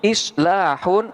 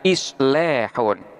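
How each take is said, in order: First: The long vowel is a plain open a. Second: The long vowel is tilted toward e.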